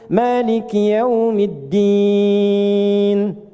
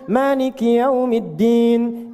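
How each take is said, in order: First: The final vowel is held about three seconds. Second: The final vowel is held about one second. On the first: "bisa kita baca tiga detik ujungnya" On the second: "boleh dibaca satu detik, dua harakat. Untuk bacaan cepat"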